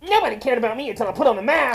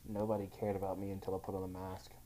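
First: It is said in a Sonic impression voice. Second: It is said in a normal voice.

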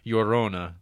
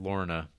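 First: The name begins with a Y sound. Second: The name begins with an L sound. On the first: The speaker calls it right. "Llorona would be pronounced closer" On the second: The speaker calls it wrong. "rather than"

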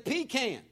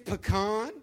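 First: It is said with a Southern pronunciation. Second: It is said with a non-Southern pronunciation.

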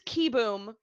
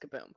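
First: The first syllable sounds like 'ki'. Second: The first syllable sounds like 'ka'. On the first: The speaker calls it right. "It is Kiboom" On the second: The speaker calls it wrong. "continue to mispronounce it as Kaboom"

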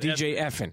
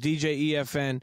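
First: EFN is said as one word, effin. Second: EFN is said as three separate letters. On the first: The speaker calls it wrong. "do not call him" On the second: The speaker calls it right. "It's DJ [name]"

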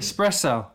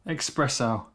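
First: The first syllable sounds like 'es', with no k. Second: The first syllable sounds like 'ex', with a k. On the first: The speaker calls it right. "You're saying it right now" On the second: The speaker calls it wrong. "There's no X"

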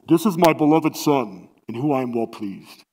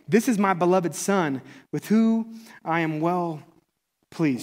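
First: It is said in a booming Lion King voice. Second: It is read in his normal voice.

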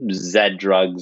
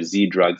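First: Z is said the Canadian way, as zed. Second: Z is said the American way, as zee.

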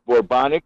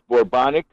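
First: It sounds like the word bubonic. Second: It sounds like the word bubonic.

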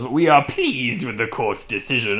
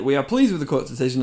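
First: Spoken in a sinister, put-on villain voice. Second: Spoken in a plain, normal reading voice.

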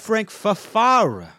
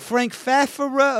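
First: The 'fara' part of the surname is lifted. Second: The 'fara' part of the surname stays level. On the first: It sounds like something a weak person would say. The speaker calls it wrong. "there's something about the way that the Fara gets lifted" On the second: A strong person would say it this way. The speaker calls it right. "I think he's going to say the former"

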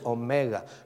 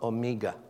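First: The second syllable sounds like 'meh'. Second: The second syllable sounds like 'mee'. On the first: It names the last letter of the Greek alphabet. The speaker calls it right. "is Omega" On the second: It sounds like the Greek word for a fly. The speaker calls it wrong. "not Omega. Miga in the Greek is a fly"

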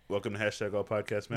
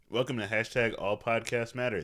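First: It is said quickly. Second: It is said slowly and dryly.

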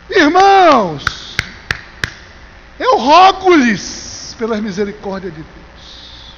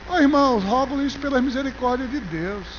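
First: It is said in an urgent, pleading tone. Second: It is read in a calm, plain tone.

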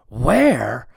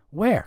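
First: It is snapped in an angry, annoyed tone. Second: It is asked in a confused, searching tone.

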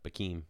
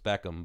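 First: The name is said like 'Bikim'. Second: The name is said like 'Beckham'. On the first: This is how the person actually says the name. The speaker calls it right. "but Bikim is his name" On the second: This is how the name looks when read from its spelling. The speaker calls it wrong. "when you read it on paper, it's Beckham"

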